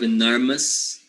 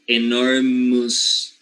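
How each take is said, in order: First: The ending is said with a plain vowel. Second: The ending is said with a 'you' sound. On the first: The speaker calls it right. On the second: The speaker calls it wrong.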